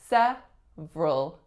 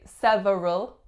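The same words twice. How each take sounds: First: A syllable is reduced or dropped. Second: Every syllable is pronounced in full. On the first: The speaker calls it right. "we say several" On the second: The speaker calls it wrong. "looks, that it should be several"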